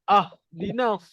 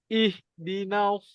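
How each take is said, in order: First: The word begins with an 'a' vowel. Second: The word begins with an 'i' vowel. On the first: The speaker calls it wrong. "tak ada pula kita baca ah dinas" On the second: The speaker calls it right. "Kita baca ihdinas siratal mustaqim"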